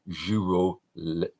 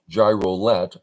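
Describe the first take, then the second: First: The name is read with French-style sounds. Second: The name is read with English-style sounds. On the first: The speaker calls it right. "Because it looks French, ... I'm assuming giroulet" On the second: The speaker calls it wrong. "instead of gy- gyro, gyrolet"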